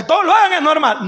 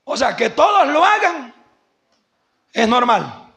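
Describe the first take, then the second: First: Plain. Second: Said in the usual way. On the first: Shown as a demonstration. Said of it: "repite la frase con énfasis". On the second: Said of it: "repite la frase".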